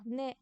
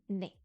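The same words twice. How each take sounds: First: The word ends with its final consonant. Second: The word ends without its final consonant. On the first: The plain counting form. "au lieu de dire né avec un S" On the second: The form used when saying an age. "on va dire né"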